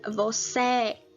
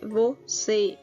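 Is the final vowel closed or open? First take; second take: open; closed. First: The final vowel is open, mouth wide open. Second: The final vowel is closed, mouth less open. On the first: The speaker calls it wrong. "se eu coloco o acento agudo... seria você" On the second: The speaker calls it right. "está com o som fechado porque tem um circunflexo"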